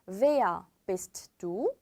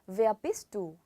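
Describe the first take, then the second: First: The words are said slowly and separately. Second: The words are said fast and run together.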